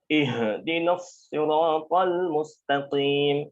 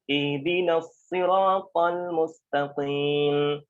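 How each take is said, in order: First: The h is pressed heavily, deep from the chest. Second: The h is light and plain, from the throat. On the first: The speaker calls it wrong. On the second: The speaker calls it right.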